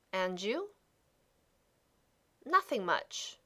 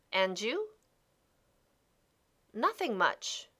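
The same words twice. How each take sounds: The two takes are said the same way.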